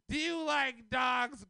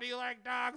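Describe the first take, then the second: First: It is asked in a grave, serious tone. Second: It is asked in a light, casual tone.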